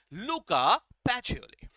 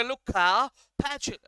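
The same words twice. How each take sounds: First: लुका पैचियोली slow, syllable by syllable, the Italian way; correct pronunciation. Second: लुका पैच- said with an English-style accent, cut off; mock the anglicized पैच- the wrong way; anglicized wrong pronunciation. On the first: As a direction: spell out लुका पैचियोली slowly and carefully. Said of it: "ऐसा मत बोलना". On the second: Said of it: "ज्यादा अंग्रेजी style में मत करना". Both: Shown as a demonstration.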